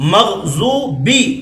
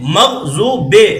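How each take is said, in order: First: The word ends with an 'ee' vowel. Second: The word ends with an 'ay' vowel. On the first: The speaker calls it right. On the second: The speaker calls it wrong.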